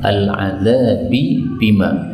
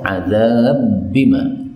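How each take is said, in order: First: The two b sounds are separated by a vowel. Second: The two b sounds merge into one long b.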